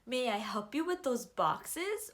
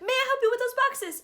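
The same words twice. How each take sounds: First: It is said as a polite question. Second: It is said as an excited exclamation.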